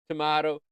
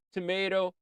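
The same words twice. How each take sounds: First: "tomato" said tuh-MAH-toh. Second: "tomato" said tuh-MAY-toh, higher. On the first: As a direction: stress a broad MAH in "tomato". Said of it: "I say tomato". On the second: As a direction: stress a long MAY in "tomato". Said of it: "You say tomato". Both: Shown as a demonstration.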